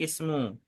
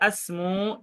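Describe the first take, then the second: First: The word begins with an i vowel. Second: The word begins with an a vowel. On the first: The speaker calls it right. "tapi ismu" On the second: The speaker calls it wrong. "atau tidak asmu"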